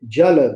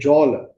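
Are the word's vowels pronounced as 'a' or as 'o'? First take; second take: a; o. First: The vowels are pronounced as open 'a' sounds. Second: The vowels are pronounced as rounded 'o' sounds. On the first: This is how other regions say the word. "they don't say Jala" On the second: This is how speakers in the eastern region say the word. "they say Jala. So it is there is a tendency to use O all the time"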